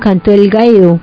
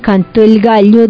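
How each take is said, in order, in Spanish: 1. El sonido 'll' se pronuncia de forma argentina. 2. El sonido 'll' se pronuncia de forma neutra. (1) "dicen cantó el gallo" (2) "a cambio de decir que cantó el gallo"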